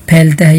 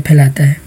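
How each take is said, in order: First: پھیلتا with no long "aa" after the l; short middle in پھیلتا. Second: پھیلاتا with a long "laa" in the middle. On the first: Teacher checking what was heard, پھیلتا said as two-syllable phail-ta. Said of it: "اگر آپ کو سننے میں غلطی لگی ہو تو". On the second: Teacher clarifying his own word, پھیلاتا said as three-syllable phai-laa-ta. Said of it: "پھیلاتا کہا ہے میں نے". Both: Shown as a demonstration.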